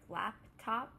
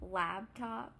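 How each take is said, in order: First: The first part is said like 'lap'. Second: The first part is said like 'lab'. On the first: "instead of laptop" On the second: "we say laptop"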